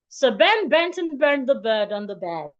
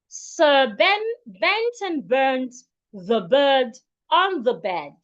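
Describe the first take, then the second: First: The sentence is said at a fast pace. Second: The sentence is said at a slow pace.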